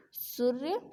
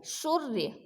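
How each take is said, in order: First: सूर्य with a short, quick u, rising at the end. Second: शौर्य said as "soorya", long ū, falling; long ū in सूर्य. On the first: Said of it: "ये छोटी मात्रा है यहाँ पे". (सूर्य में छोटा उ, गलत उच्चारण) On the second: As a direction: stretch the first vowel of शौर्य into "oo". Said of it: "बड़े ऊ की मात्रा". (शौर्य को सूर्य जैसे, लंबा ऊ) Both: Shown as a demonstration.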